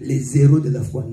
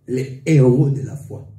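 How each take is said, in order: First: A z sound links les to héros. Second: No z sound links les to héros. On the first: The speaker calls it wrong. "Nous ne pouvons pas faire la liaison, dire que" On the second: The speaker calls it right.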